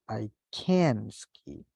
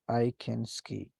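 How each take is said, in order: First: The vowel in 'can' is long. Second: The vowel in 'can' is short. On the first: The speaker is not able to ski. "it'll be longer" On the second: The speaker is able to ski. "the sound is shorter"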